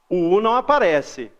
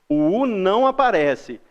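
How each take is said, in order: Both takes have the same delivery.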